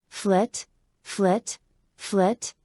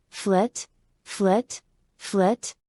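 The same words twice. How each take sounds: The two takes are said the same way.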